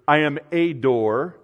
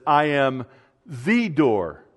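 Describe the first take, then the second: First: "a" said as a long "ay" before "door"; stress on A. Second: "the" said as "thee", held back by a pause before "door"; slow down and set off "the" as definitive; stress on THE. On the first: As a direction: pick out "a" as the wrong word. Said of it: "He doesn't say". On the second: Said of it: "in that definitiveness". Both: Shown as a demonstration.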